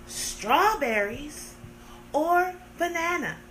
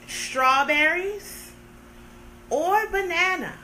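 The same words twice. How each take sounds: The two takes are said the same way.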